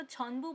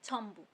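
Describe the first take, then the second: First: छोम्बू said with n, as "chhon-bu"; unassimilated reading. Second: छोम्बू with m before b; usual pronunciation. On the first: Teacher cites a form never heard, छोम्बू as chhon-bu. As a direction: keep n before b in छोम्बू. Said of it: "कभी भी किसी को छोम्बू बोलते नहीं सुना". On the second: Teacher gives the usual pronunciation, छोम्बू with m. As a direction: close the lips early for m in छोम्बू. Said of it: "हमेशा pronounce कर सकते हो". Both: Shown as a demonstration.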